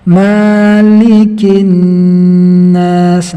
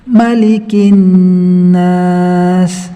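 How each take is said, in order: First: The first vowel is held and sounds long. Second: The first vowel is short and not held. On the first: The speaker calls it wrong. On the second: The speaker calls it right.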